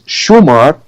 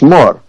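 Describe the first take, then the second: First: It is said as two syllables, Shu-mar. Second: It is said as one syllable, Shmor. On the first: This is how the rest of the Arabian Peninsula says it. "which is the pronunciation in in the rest of the Arabian Peninsula" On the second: This is how Lebanese speakers say it. "We pronounce Shmor"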